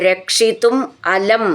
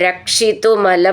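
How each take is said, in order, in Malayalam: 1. ഈ രണ്ടു വാക്കുകളും വേറെ വേറെയാണ് പറയുന്നത്. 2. ഈ രണ്ടു വാക്കുകളും ചേർന്ന് ഒന്നായി പറയുന്നു. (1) "രക്ഷിതും അലം എന്നാണത്" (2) "നമ്മൾ ചേർത്തിട്ട് അങ്ങനെ വായിച്ചാലും"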